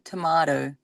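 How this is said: It is said with an Australian pronunciation. "that is the pronunciation here in Australia"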